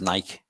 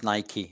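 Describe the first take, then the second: First: The name is said the Liverpool way. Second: The name is said the American way. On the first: "if you're from Liverpool, it's Nike" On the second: "if you're American, it's Nike"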